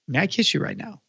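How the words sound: It sounds romantic and passionate.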